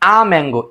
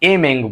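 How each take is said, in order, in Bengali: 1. এই আর্টিকেলটি ছোট 'uh' স্বরের মতো উচ্চারিত হয়। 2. এই আর্টিকেলটি 'ay' স্বরের মতো উচ্চারিত হয়। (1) "আ উচ্চারণ হবে" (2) "আমরা অনেকে এ বলি"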